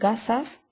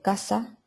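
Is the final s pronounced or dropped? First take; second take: pronounced; dropped. First: The final s is clearly pronounced. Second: The final s is aspirated or dropped.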